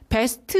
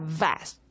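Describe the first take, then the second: First: The word starts with a b sound. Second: The word starts with a v sound. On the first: The speaker calls it wrong. "best 이렇게 하는 게 아니라" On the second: The speaker calls it right. "윗입발로 아랫입술 물어"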